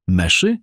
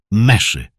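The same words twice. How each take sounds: First: MESZY as a contemptuous rising echo; scornful question. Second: MESZY louder, landing with a fall; emphatic repeat. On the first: Father scorning the servant's name, „Meszy” rising. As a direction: spit out „Meszy” as a disbelieving question. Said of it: "Kisz splunął pogardliwie". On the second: Father repeating the name, „Meszy” emphatic and falling. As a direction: hammer „Meszy” as a flat-out statement. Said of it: "powtórzył dobitnie". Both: A narrator's reading.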